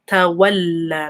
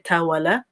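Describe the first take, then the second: First: The l sound is doubled and held. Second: The l sound is short and single. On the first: The speaker calls it right. "make that connection" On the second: The speaker calls it wrong. "Don't say تولى"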